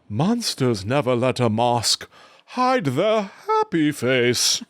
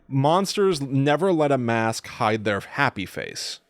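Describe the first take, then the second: First: It is said in a swooping Jiminy Glick-like voice. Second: It is said in his normal voice.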